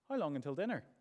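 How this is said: The question is asked in a calm, curious tone. The asker simply wants to know the time. "inquisitive, interested, would like to know the time"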